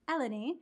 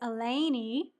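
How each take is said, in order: First: It copies the friends' non-Southern pronunciation. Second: It is said with a Southern US accent. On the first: The speaker calls it right. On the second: The speaker calls it wrong.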